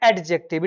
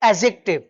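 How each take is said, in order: First: A d sound is heard before the j. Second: No d sound is heard before the j. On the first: The speaker calls it wrong. "It is not एडजेक्टिव" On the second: The speaker calls it right. "It is एजेक्टिव"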